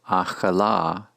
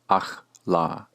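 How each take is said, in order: First: A short vowel is heard between ch and l. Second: No vowel is heard between ch and l. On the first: The speaker calls it right. "to say she ate is pronounced achala" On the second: The speaker calls it wrong. "not simply achla"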